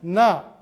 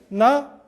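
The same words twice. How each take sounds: First: The syllable is said on a low pitch. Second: The syllable is said on a high pitch. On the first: "점이 없으면" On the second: "점이 있으면"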